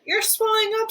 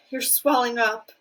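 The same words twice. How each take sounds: First: Very high scream. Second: Lightly raised alarmed voice; mild scream. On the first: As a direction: shriek it in panic. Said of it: "screamed Missus Beauregard again". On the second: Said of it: "screamed Missus Beauregard". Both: A narrator's reading.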